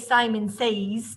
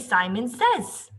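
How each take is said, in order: First: Says has a long ay vowel sound. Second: Says has a short e vowel sound. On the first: The speaker calls it wrong. "if I sounded it out, A's, says, we don't say Simon says" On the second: The speaker calls it right. "We say Simon says"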